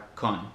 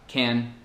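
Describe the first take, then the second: First: The vowel is reduced to a schwa. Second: The vowel is said fully.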